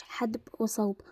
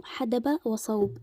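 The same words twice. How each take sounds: First: حدب said ḥadb, no vowel on the dal, in a whisper; حدب mispronounced ḥadb, dal without a vowel; wrong pronunciation. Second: حدب وصوب said slowly as ḥadab wa ṣawb, fatha on the dal; حدب pronounced ḥadab, with a vowel after the dal; correct pronunciation. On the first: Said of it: "مش حدب وصوب". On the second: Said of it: "نقول برضو". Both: Shown as a demonstration.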